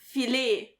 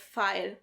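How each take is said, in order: First: The word sounds like the French word filet. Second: The word sounds like plain English file. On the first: This is the father's mispronunciation. The speaker calls it wrong. "my dad also can't pronounce... the actual name was filet" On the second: This is the correct English word. The speaker calls it right. "instead of file"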